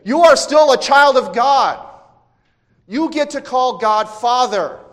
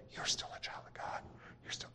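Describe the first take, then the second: First: High, very loud proclamation; shouting. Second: Faint, voiceless whisper. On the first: The Spirit shouting over Satan's temptations, full shout. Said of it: "no, he's saying". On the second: Preacher showing how the Spirit doesn't speak, whispered. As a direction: whisper it so it's barely heard. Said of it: "the Spirit isn't there saying". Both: Acted.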